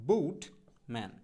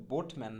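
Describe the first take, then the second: First: বুটম্যান split slowly, first vowel gliding "bout"; slow model pronunciation. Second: Said in the usual way. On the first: Shown as a demonstration. Teacher modelling boatman for learners, slow gliding বুটম্যান. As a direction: stretch বুটম্যান as "bo-ut... man". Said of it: "সঠিক উচ্চারণটা হবে হচ্ছে". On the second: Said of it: "মোটেও বোটম্যান না".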